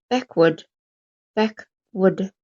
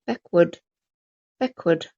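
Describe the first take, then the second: No difference in how they are said.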